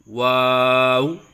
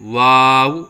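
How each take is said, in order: First: The lips are rounded on the w sounds. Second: The lips are not rounded on the w sounds. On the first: The speaker calls it right. "फिर दोबारा होंठ गोल करें" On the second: The speaker calls it wrong. "होंठ गोल नहीं करते, ये गलत है"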